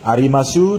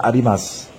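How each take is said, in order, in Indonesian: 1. Vokal u di akhir jelas diucapkan. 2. Vokal u di akhir dihilangkan.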